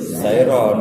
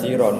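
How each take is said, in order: First: The first syllable has an 'ai' diphthong. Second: The first syllable has a plain 'i' vowel. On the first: The speaker calls it right. "ya tetap sairon" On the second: The speaker calls it wrong. "enggak boleh dibaca siron"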